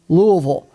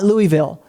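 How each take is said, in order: First: The name is said the way locals say it. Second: The name is said the usual outsider way. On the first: The speaker calls it right. "It is Louisville" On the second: The speaker calls it wrong. "I used to say that wrong for the longest time"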